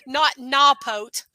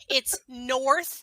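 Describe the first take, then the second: First: The R sounds are dropped. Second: The R sounds are clearly pronounced. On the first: The speaker calls it wrong. "you don't use your R's" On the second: The speaker calls it right.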